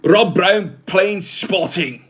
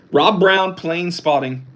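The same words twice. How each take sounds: First: Higher, louder put-on movie-star voice; slow, do a famous actor's voice; mock celebrity voice, slow and raised; Mel Gibson impression. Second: Said in the usual way. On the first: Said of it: "that was my Mel Gibson impression". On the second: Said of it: "this is Mel Gibson".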